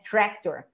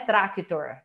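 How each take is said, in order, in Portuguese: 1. A primeira vogal soa como um 'eh'. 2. A primeira vogal soa como um 'ah' aberto. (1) "tá com E" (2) "o sonzinho do A não é tractor"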